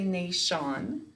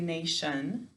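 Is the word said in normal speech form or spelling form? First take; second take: spelling; normal. First: The ending is said sound by sound, spelling-style. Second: The ending is said smoothly as 'shun'. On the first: This form helps with spelling the word. "So to spell it, we say nation" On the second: This is how the word is said in conversation. "When we're talking, we say nation"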